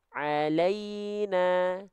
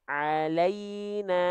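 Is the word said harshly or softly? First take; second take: softly; softly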